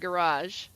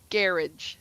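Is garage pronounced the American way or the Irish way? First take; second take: American; Irish. First: It is said with an American pronunciation. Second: It is said with an Irish pronunciation. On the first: "not garage" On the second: "over there in uh Ireland and Northern Ireland, they say garage"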